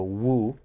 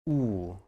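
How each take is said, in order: First: The vowel starts with a w glide. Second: The vowel is a plain oo, no glide. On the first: The speaker calls it wrong. "It's not so much the woo" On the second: The speaker calls it right. "So more just like a ooh"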